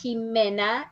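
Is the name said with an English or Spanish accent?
Spanish. The name is said with a Spanish accent. The speaker calls it right. "Listen my pronunciation"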